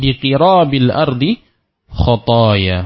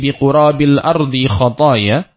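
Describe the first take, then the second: First: The vowel after the q is an i. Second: The vowel after the q is a u. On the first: "atau bisa dibaca dengan" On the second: "dengan didomahkan qafnya, ini lebih masyhur di kalangan ahlul lughah"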